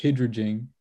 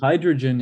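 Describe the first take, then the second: First: "hydrogen" said as HID-ruh-jin; short-i mispronunciation. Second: Said in the usual way. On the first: Shown as a demonstration. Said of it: "is pronounced hydrogen". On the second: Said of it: "hydrogen is pronounced hydrogen".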